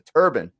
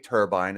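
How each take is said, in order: First: The word sounds like the headwear 'turban'. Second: The second syllable rhymes with 'fine'. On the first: This is how the power generating industry says it. "in the power generating industry, it's referred to as a turbine" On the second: This is how many people and the aircraft industry say it. "a lot of people say turbine"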